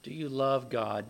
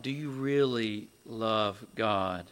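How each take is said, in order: First: Said in the usual way. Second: "really love God" slowed and weighted word by word; slow right down, pressing on "really"; stress on really. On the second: Real, not acted. Repeats question, then intensifies it.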